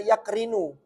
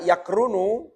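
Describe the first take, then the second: First: The vowel after the r is 'i'. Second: The vowel after the r is 'u'. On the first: This is the form of another dialect. "bikasriyah dibaca yakrinu" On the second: This is the form of the standard, eloquent language. "Di dhammah ra-nya"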